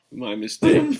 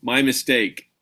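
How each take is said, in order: First: "mistake" jumps high with a rising tune; high rising mock apology. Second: Said in the usual way. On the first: Shown as a demonstration. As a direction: squeak "mistake" up high as a question.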